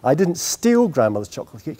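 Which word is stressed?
steal. The stress is on "steal".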